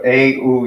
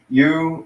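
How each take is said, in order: First: It glides from an 'eh' vowel into 'oo'. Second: It sounds like the English word 'you'. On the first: "maybe something like this, a u" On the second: "you can either pronounce it that way, you"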